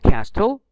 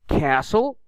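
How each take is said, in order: First: The T is pronounced aloud. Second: The T is not pronounced. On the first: The speaker calls it wrong. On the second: The speaker calls it right.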